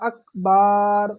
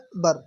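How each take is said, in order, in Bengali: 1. একটি স্বরধ্বনি দীর্ঘ করে টানা হয়। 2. কোনো স্বরধ্বনিই টানা হয় না। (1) "আকবার বলে টান দিয়ে ফেলি" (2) "আসল উচ্চারণ হচ্ছে আল্লাহু আকবার"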